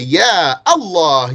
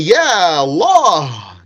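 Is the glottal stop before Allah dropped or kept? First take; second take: kept; dropped. First: The glottal stop before Allah is kept. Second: The glottal stop before Allah is dropped. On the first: The speaker calls it right. "you say Ya Allah, you keep it" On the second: The speaker calls it wrong. "you don't say Ya Allah"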